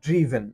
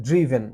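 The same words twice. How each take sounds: First: The first vowel sounds like 'ih'. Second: The first vowel sounds like 'ih'.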